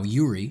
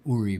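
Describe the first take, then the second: First: The name begins with a Y sound. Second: The name begins with a plain vowel sound. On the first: The speaker calls it right. "But for now" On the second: The speaker calls it wrong. "I was calling you Uri before"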